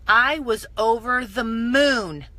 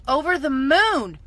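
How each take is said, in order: First: Said in the usual way. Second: "Over the moon" repeated louder and higher, "moon" stretched; emphatic repeat. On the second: Real, not acted. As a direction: burst out with it the second time.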